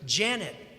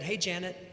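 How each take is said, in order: First: It is said loudly and assertively. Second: It is said softly and quietly.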